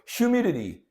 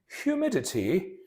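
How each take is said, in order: First: It is said in an American accent. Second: It is said in a British accent. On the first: "in the American accent" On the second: "let me read it in British"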